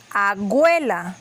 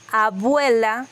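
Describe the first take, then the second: First: "agüela", abuela with a g. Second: Said in the usual way. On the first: Shown as a demonstration. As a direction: say "agüela" with a g sound in place of the b. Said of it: "dicen agüela con G". ("agüela" con g en vez de b) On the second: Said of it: "En vez de decir".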